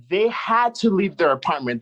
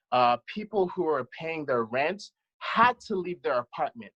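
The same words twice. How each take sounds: First: "They had to leave their apartment" said again higher and louder, pressing each word; outraged insistence on "had to leave"; emphatic repeat. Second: Said in the usual way. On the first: Real, not acted. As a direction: hammer the point home on the repeat.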